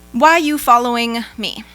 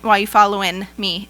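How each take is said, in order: First: Following ends with the velar ng sound. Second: Following ends with the alveolar n sound. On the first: The speaker calls it wrong. "the velar, the mm variant of ing" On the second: The speaker calls it right. "it would be the alveolar, the N variant"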